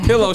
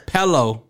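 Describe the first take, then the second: First: Said in the usual way. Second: "pello" with EH in place of IH; her "pello". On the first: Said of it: "She says pello". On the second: Retold or imitated. Host teasing girlfriend's word, "pello" with an EH. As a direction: mimic pillow pronounced as "pello". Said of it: "she said pillow".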